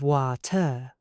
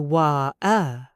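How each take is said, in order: First: The middle T is clearly pronounced. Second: The middle T is swallowed.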